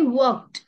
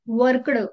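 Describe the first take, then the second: First: The ending has a t sound, no d. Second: The ending has an audible d sound. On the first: The speaker calls it right. "मी वर्कड म्हटलं, ड चा sound आला नाही" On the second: The speaker calls it wrong. "बरेच जण त्याला असंही प्रोनाऊन्स करतील. सो हे अतिशय चुकीचं आहे"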